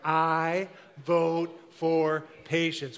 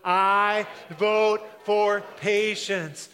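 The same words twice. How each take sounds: First: It is said plainly, without extra energy. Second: It is said loudly with strong energy.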